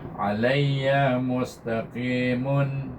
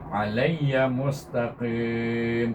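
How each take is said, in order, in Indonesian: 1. Kata terakhir berakhir dengan 'mun' bersuara. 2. Kata terakhir berakhir dengan 'm' yang tidak dibaca. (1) "kalau kita wasal kita baca dengan tanwin" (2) "Kalau kita sukunkan"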